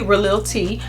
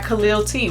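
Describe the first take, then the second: First: The name begins with a throaty, R-like sound. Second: The name begins with a hard K sound. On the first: The speaker calls it right. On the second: The speaker calls it wrong.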